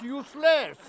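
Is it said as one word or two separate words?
one word. It is run together as one word. The party is worthless. The speaker calls it wrong. "not useless"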